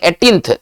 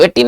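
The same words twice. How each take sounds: First: एटीन्थ, with th added after the n; correct reading. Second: एटीन, ending on n; wrong reading. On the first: Teacher correcting the date's ordinal, correct reading. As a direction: finish एटीन्थ on a th sound. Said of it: "इसको पढ़ेंगे एटीन्थ". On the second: Teacher showing what not to read, wrong reading. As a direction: say एटीन with no th at the end. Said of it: "इसको एटीन नहीं पढ़ेंगे". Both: Shown as a demonstration.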